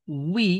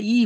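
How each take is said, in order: First: উই said with a rounded w glide into i; the correct way: উই, not a bare ই. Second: ই said as a bare i without the w glide, the mistaken way; the common mistake: ই instead of উই; wrong plain i. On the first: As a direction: give the right উই with the glide. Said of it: "ই হবে না". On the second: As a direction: show the learners' error: just ই. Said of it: "এখানে অনেকে উই বলতে পারে না". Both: Shown as a demonstration.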